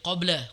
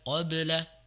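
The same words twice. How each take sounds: First: The 'b' is weak with no bounce. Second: The 'b' is released with a clear bounce. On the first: The speaker calls it wrong. "qalqalah atau sukunnya kurang ya. Jadi masih seperti" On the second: The speaker calls it right.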